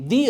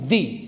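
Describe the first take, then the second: First: It is said in its before-vowel form. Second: It is said in its before-vowel form.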